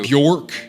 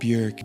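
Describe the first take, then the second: First: The name sounds harsh and choked. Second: The name sounds soft and rounded. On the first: The speaker calls it wrong. "sounds like a dog who's choking on a meatball" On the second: The speaker calls it right. "is more dough-like"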